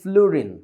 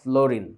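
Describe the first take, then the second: First: The first vowel sounds like 'oo'. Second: The first vowel sounds like 'oh'. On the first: The speaker calls it right. "উচ্চারণটা হয় কিন্তু ফ্লুরিন" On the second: The speaker calls it wrong. "Not ফ্লোরিন"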